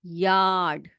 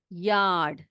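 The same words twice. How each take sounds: The two takes are said the same way.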